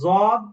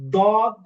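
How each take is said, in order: First: The consonant sounds like a plain z. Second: The consonant sounds like a plain d. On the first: "সরাসরি জদ, এটা ভুল" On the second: "এটাও ভুল"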